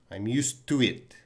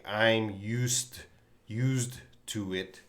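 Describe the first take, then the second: First: "used to" run together with a single T, the D gone; blended used to. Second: "used to" with a clear D before "to"; careful used to. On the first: Teacher modelling the natural native version, smoothly blended. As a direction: say "I'm used to it" with "used to" as one word ending in T. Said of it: "they're gonna blend this together". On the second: Teacher showing students what a native speaker won't say, carefully. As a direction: say "used, used to it" slowly, sounding the D. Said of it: "a native speaker is not gonna say". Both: Shown as a demonstration.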